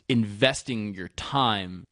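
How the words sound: The stress falls on the word time.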